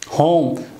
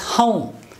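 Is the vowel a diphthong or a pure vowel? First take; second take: pure vowel; diphthong. First: The vowel is a single pure o sound. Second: The vowel glides as a diphthong. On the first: The speaker calls it wrong. "We say home, o" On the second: The speaker calls it right. "the actual sound of this one"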